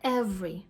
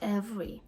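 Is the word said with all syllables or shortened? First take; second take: shortened; shortened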